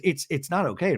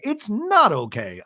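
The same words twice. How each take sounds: First: Said in the usual way. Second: "It's not okay" higher and slow, punching "not"; slow, high-pitched retort leaning on "not"; emphatic echo. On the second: Retold or imitated. Braunwyn's emphatic echo of Angie.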